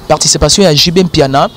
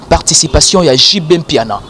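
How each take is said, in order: Both takes have the same delivery.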